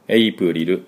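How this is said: It is said as five Japanese-style syllables. The speaker calls it wrong. "日本語発音ではエイプリルですけれども"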